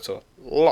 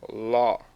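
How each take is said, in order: First: The syllable is short, high and abruptly stopped. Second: The syllable is said on a low pitch. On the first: "the stop tone, which would be uh, with the short and it's high" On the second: "And then the low tone"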